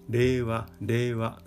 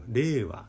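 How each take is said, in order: First: The pitch stays level across the word. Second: The pitch is high on the first syllable. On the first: "平べったくアクセントを作って平らに喋る言い方をしています" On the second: "頭高ということでアクセントが頭にある令和という言い方"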